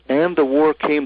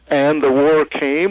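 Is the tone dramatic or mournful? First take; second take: mournful; dramatic. First: It is said sadly and mournfully. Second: It is said with great drama.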